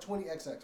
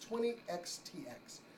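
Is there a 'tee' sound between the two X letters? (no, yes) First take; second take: no; yes. First: The two X letters are said back to back. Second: A 'tee' sound comes between the two X letters. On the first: The speaker calls it wrong. "it looks like twenty X X" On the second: The speaker calls it right. "but it's twenty X T X"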